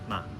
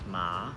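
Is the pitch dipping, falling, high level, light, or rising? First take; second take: light; dipping. First: The syllable is light, short, and fading. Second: The pitch starts low, dips, then rises. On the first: "the neutral tone ma, almost like it's fading out" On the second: "Third tone ma, starts low, dips, then rises"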